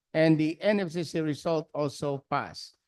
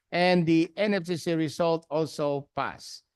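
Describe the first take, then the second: No difference in how they are said.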